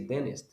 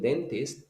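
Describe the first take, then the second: First: The t after the n is dropped. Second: The t after the n is clearly pronounced. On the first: "so they use a contraction and they say dentist" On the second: "Instead of saying dentist"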